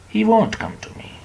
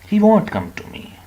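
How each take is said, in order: First: It is contracted to the form 'won't'. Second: The same.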